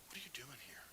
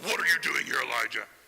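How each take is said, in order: First: It is said in a gentle, caring tone. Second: It is said in a scolding, accusing tone.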